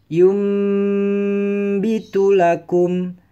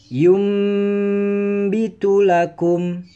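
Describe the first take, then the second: Both takes have the same delivery.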